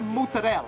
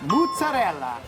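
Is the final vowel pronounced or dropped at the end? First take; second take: dropped; pronounced. First: The final vowel is dropped. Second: The final vowel is clearly pronounced. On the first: "I hear mozzarella" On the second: "With an A at the end"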